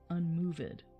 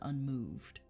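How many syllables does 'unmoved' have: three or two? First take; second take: three; two. First: The word is said with three syllables. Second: The word is said with two syllables.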